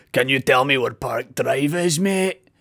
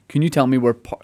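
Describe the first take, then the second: First: Slow, imitated American accent, lifting on mate. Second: Said in the usual way. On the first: American lady asking him for directions, imitated American accent. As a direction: put on an American tourist's drawl. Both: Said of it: "she said in her American accent".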